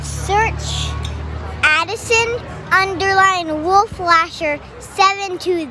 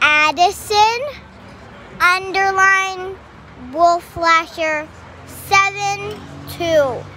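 First: It is said at normal speed. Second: It is said a bit slower.

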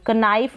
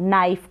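First: The word starts with a k sound. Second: The word starts with an n sound. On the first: The speaker calls it wrong. "कनाइफ नहीं बोलेंगे" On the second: The speaker calls it right. "इसको आप न पढ़ देंगे"

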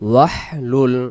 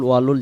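First: The word is said with an h sound. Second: The word is said without an h sound. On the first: The speaker calls it right. "উচ্চারণ হবে ওয়াহলুল" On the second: The speaker calls it wrong. "ওয়ালুল ওয়ালুল যেমন হয়"

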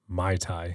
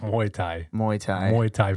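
First: The first syllable sounds like 'my'. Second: The first syllable sounds like 'moo-eye'. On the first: It sounds like the name of a cocktail. The speaker calls it wrong. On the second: It names the martial art. The speaker calls it right.

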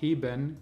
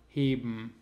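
First: The e in the ending is pronounced. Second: The e in the ending is dropped.

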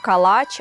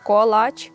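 First: The first vowel is an open 'a' sound. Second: The first vowel is a rounded 'o' sound. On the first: The speaker calls it wrong. "не калач" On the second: The speaker calls it right. "а саме колач"

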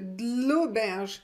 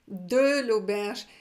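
First: The vowel in 'de' is dropped. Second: The vowel in 'de' is pronounced. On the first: "Je ne prononce pas le E" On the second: "Vous pouvez aussi prononcer"

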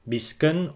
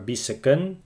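First: The middle consonants are said together. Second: A short vowel separates the middle consonants. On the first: "words with clusters" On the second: "without clusters, but with the letter ø"

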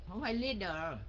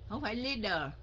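The two takes are said the same way.

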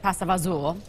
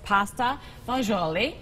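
First: The dish name is said in an altered form. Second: The dish name is said in its standard form.

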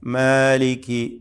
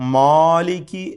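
First: The long first vowel is thin and light. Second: The long first vowel is thick and heavy. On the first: The speaker calls it right. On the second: The speaker calls it wrong. "അലിഫിനെ പെരുപ്പിച്ചുകൊണ്ട് തഫ്ഹീം ചെയ്തുകൊണ്ട് ചിലർ പറയും. അതും തെറ്റാണ്"

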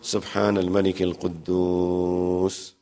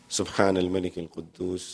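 First: It is said louder with drawn-out sounds. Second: It is said quietly without drawn-out sounds. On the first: "he would stretch it and say it louder" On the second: "he will say it a little slow"

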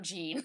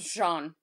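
First: The name is said like the English name 'Gene'. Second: The name is said with a soft French 'zh' sound. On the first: The speaker calls it wrong. "and not Jean" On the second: The speaker calls it right. "you really should have known that this was Jean"

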